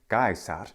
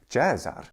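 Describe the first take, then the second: First: It is said in classical Latin pronunciation. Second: It is said in Italian ecclesiastical pronunciation. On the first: "In classical Latin pronunciation" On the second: "In the Italian ecclesiastical pronunciation"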